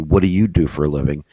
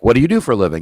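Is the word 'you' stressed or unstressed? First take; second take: stressed; unstressed. First: The word 'you' carries strong stress. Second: The word 'you' carries no special stress.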